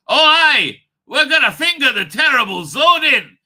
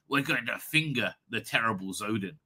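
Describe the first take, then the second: First: Very enthusiastic, loud and high; Jamie. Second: Low, understated delivery; softer and lower, as a deadpan announcement; the Doctor. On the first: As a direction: belt it out as an over-eager sidekick. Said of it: "Very, very, you know, uh, uh, enthusiastically". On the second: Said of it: "if the Doctor turned around and says". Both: Acted.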